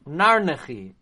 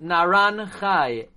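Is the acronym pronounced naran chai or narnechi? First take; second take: narnechi; naran chai. First: It is said as narnechi. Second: It is said as naran chai. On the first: "I think he said this is the correct way to pronounce it" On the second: "I always pronounced it Naran Chai"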